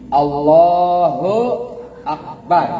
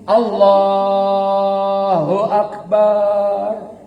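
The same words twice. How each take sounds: First: The final syllable bar is cut short. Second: The final syllable bar is drawn out long. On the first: It sounds healthy and sound. The speaker calls it right. "Barnya pendek ya" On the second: It sounds like someone who is heartbroken. The speaker calls it wrong. "Lagi sakit hati yang barnya panjang"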